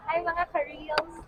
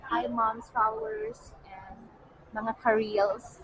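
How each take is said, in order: First: Lighter, higher retake of the greeting; higher-pitched greeting. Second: Modulated voice. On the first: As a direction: lift the pitch on the hello. Greeting redone after laughing at herself. (mas mataas na tono ng pagbati) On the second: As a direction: greet them slowly in a modulated voice. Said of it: "Mas modulate". (modulado at mabagal na pagbati) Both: Real, not acted.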